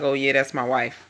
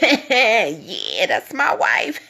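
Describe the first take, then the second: First: It is said in a flat, bored tone. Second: It is said in a lively, excited tone.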